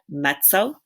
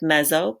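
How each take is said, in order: First: The double z sounds like ts, as in pizza. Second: The double z is a plain buzzing z. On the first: The speaker calls it right. "we pronounce that mezzo, just like the two Z's in pizza" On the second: The speaker calls it wrong. "It looks like mezzo"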